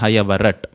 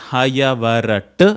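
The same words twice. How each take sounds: First: The word ends abruptly on the final consonant. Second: The word ends with an extra vowel sound. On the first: The speaker calls it right. "It is hayavarat that you pronounce correctly. ... It is abruptly cut off" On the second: The speaker calls it wrong. "So it's not hayavarat"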